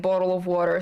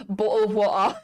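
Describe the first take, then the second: First: Easy American "bottle of water". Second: British accent, glottal stops for the t's; British glottal "bottle of water", amused. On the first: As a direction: tap the t's in bottle of water, American style. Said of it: "Instead of bottle of water". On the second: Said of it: "I've missed saying bottle of water". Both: Shown as a demonstration.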